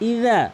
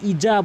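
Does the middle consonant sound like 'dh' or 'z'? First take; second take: dh; z. First: The middle consonant is a soft 'dh' sound. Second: The middle consonant is a 'z' sound. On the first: The speaker calls it right. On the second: The speaker calls it wrong. "কখনোই ইজা বলবেন না"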